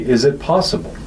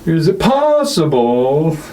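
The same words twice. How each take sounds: First: The emphasis is plain and ordinary throughout. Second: Odd heavy emphasis falls on later syllables. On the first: The speaker calls it right. "Just say" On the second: The speaker calls it wrong. "the weird emphasis he puts, especially on not that first, but the second syllable, and then again at the end"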